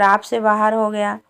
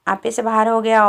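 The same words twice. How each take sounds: First: आप said short, ending on plain aap; misread aapa as aap. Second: आपे said in full, ending on a clear e; corrected to aape. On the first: Reader's slip, आप said as plain aap. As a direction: reader slips, saying आप for आपे. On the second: Reader corrects himself, stressing आपे with a final e. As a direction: reader repeats the phrase, now saying आपे properly. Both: Shown as a demonstration.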